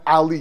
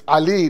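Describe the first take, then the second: First: The name is said with English sounds. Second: The name is said with Arabic sounds. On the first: The name is adapted to fit in. The speaker calls it wrong. "not Ali" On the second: The speaker is proud of the name's origin. The speaker calls it right. "It's Ali"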